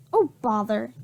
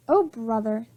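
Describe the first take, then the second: First: "bother" said without the r, a slip; misread line. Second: Said in the usual way. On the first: Shown as a demonstration. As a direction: read "Oh, bother" by mistake.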